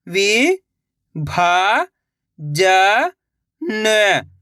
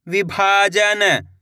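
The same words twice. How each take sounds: First: "विभाजन" drawn out very slowly by syllable; sounding out slowly. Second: Said in the usual way. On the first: Shown as a demonstration. Teacher sounding out a word for young readers. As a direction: stretch "विभाजन" into slow parts. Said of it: "एक अक्षर का उच्चारण करके". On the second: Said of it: "लाके पढ़ना है".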